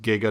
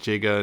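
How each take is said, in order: First: The word starts with a hard g sound. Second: The word starts with a j sound. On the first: The speaker calls it right. "it's supposed to be pronounced Giga" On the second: The speaker calls it wrong. "not Jiga"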